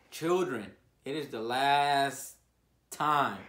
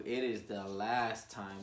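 First: Put-on a slow loud warning to the children; preaching. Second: Said in the usual way.

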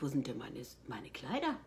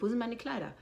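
First: Quiet thought. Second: Higher, asked straight out; demanding out loud. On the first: She recalls silently wondering where her dresses went. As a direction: lower and softer, just thinking it. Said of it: "dachte ich". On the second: She asks the costume staff out loud for her dresses. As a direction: put the question to them firmly. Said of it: "Ich sag". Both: Retold or imitated.

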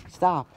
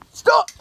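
First: Said in the usual way. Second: High, loud barked stop; loud shout. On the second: Acted. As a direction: yell it to stop the kid. Sergeant repeats order louder.

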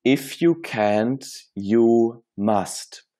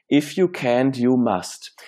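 First: Each word set apart, slowly, "If you can't, you must"; slow deliberate English motto. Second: Said in the usual way. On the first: Shown as a demonstration. Coach introducing his life-changing challenge, slow and deliberate. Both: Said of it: "Die heißt".

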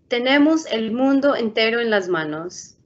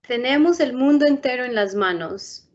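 Both takes have the same delivery.

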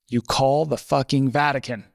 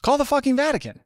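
First: Said in the usual way. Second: Much higher-pitched incredulous repeat; mock exasperation. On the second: Editor telling the intern the obvious, high and exasperated. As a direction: imitate an exasperated boss, voice jumping up high.

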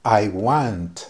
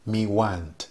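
First: I want, said in plain English; English phrase. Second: Me want, with the T hardly sounded; me want, soft T at the end; Patois phrase. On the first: Teacher gives the English I want first. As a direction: say I want cleanly. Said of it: "yo digo". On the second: Teacher gives the Patois me want after the English. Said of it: "Pero en patua, yo digo". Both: Shown as a demonstration.

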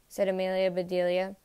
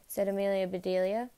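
Both takes have the same delivery.

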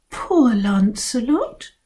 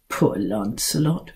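First: Slow, sympathetic sigh; pitying. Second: Lower, softer sarcastic repeat; mocking echo. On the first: Acted. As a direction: coo over him with pity. Girls pitying Lancelot. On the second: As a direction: mimic them with scorn. Cat mocking the pity.

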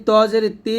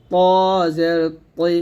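First: ত জের তি with তি wrongly light, no o colour; brisk example of ত losing its heaviness in তি; mistaken thin ending. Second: ত জের তৈ slowly, heavy t gliding o to i; correct thick toi. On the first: Teacher showing learners the mistake, thinned t. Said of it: "এটা ভুল". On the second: Teacher correcting the mistake, thick t. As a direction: keep the dark o colour in তৈ. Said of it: "এরকম". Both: Shown as a demonstration.

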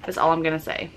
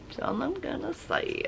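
First: Said in the usual way. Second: Very soft, high little echo; playful hush. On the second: Pretend. Vlogger playfully echoing herself to viewers, hushed high voice. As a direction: repeat it tiny and high, barely audible.

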